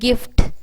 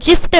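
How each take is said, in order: First: The word begins with a hard g sound. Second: The word begins with a j sound. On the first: The speaker calls it right. "ஒருத்தங்களுக்கு கிஃப்ட் கொடுக்குறோம் அப்படின்னா அங்கே கி கு இ கி sound தான்" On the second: The speaker calls it wrong. "இந்த வார்த்தையை நம்ம ஜிஃப்ட் அப்படின்னு படிக்க மாட்டோம்"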